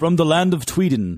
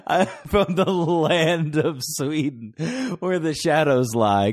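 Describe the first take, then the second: First: Mock Swedish accent saying Tweeden; hammy Swedish accent, Tweeden with a t. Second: Slow, high mock Swedish accent. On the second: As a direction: intone it in a grand Swedish accent. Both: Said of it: "you should do a Swedish accent".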